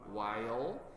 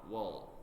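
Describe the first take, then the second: First: The word is said slowly in its full form. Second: The word is said quickly in a reduced form. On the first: "sometimes you may pronounce it as while" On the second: "most often and quickly we say while"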